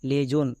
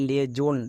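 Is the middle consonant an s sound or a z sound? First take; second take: z; z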